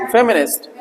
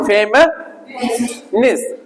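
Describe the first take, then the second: First: Said in the usual way. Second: फेमिनिस्ट drawn out slowly, softer; slow model pronunciation. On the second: Shown as a demonstration. (धीमा, साफ़ उच्चारण) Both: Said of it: "फ वही वाला, बिंदी वाला".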